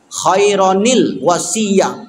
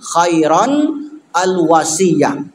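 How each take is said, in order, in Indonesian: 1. Kedua kata disambung dengan bunyi 'nil'. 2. Kedua kata dibaca terpisah tanpa sambungan.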